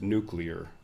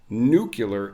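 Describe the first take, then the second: First: It is said 'nu-clear', with a 'cl' cluster. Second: It is said 'nu-cu-lar', with an extra vowel. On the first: The speaker calls it right. "somebody that mispronounced nuclear" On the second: The speaker calls it wrong. "is a made-up term"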